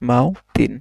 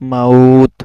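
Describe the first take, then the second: First: The word ends with an added '-in' sound. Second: The word ends on a plain consonant. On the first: The speaker calls it wrong. "মাও তিন তো বলা যাবে না" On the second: The speaker calls it right. "জজম থাকলে কি হবে? মাউথ"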